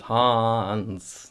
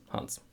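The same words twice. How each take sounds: First: "Hans" with a broad American a, drawn out; American reading. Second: "Hans" short and crisp, quick a; short German. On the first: Retold or imitated. Teacher imitating how Americans say "Hans". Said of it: "people from the United States". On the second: Shown as a demonstration. Teacher whispering the short German "Hans". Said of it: "Keep it short".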